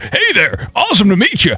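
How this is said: It is said in a Donkey Kong voice.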